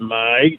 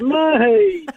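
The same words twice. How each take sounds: First: The word is said in an angry tone. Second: The word is said in a happy tone. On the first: The speaker is annoyed. "you might be angry, you go" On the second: The speaker is pleased. "Or you could be happy, you go"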